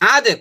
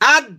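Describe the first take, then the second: First: The final d is released with an echoing bounce. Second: The final d stops cleanly without a bounce. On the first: "আদে কলকলা কর" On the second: "আপাতত কলকলা করেন না শুধু এইভাবে বলেন"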